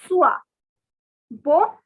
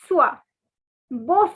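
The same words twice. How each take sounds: The two takes are said the same way.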